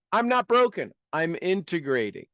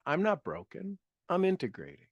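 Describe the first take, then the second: First: Confident declaration, punching "broken"; with conviction. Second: Quieter, lifting on "not"; a soft private affirmation; softer repeat. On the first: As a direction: say it like you mean it, strong. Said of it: "a little bit of pizzazz to it". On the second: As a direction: say it again gently to yourself. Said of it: "Just say that". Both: Shown as a demonstration.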